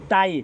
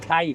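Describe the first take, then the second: First: The t sound has no puff of breath. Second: The t sound has a puff of breath. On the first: The word means death. The speaker calls it wrong. "le touriste, le il dit la Thaïlande, le mot Thaï, ça veut dire mort" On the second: The word means freedom. The speaker calls it right. "Si on prononce Thaï, ça veut dire liberté"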